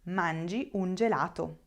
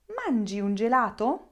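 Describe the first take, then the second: First: "Mangi un gelato" level, gelato settling as a statement; affirmative statement tune. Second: "Mangi un gelato" with gelato swinging up at the end; question intonation. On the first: Teacher contrasting two sentences for learners, affirmative statement tune. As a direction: state "Mangi un gelato" without a questioning lift. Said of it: "Listen to the two different sentences". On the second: Teacher contrasting two sentences for learners, rising question intonation. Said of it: "I'm using intonation to create a question". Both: Shown as a demonstration.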